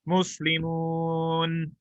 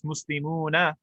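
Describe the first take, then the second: First: The word ends with a consonant. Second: The word ends with a final vowel. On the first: The speaker is stopping on the word. "we would not pronounce that fatha" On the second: Every ending is spelled out for learning. "in Arabic class, we pronounce everything"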